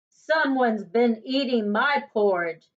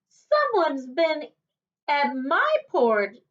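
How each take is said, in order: First: It is said in a deep, gruff bear voice. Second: It is said in a medium-pitched bear voice.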